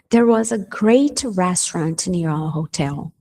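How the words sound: The word great carries the strongest stress. The restaurant was excellent. "eu boto ênfase aonde? No great"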